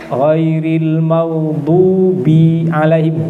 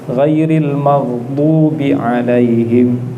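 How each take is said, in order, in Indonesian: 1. Vokal setelah 'b' di maghdubi dipanjangkan. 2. Vokal setelah 'b' di maghdubi tetap dibaca pendek.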